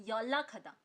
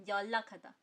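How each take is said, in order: Both takes have the same delivery.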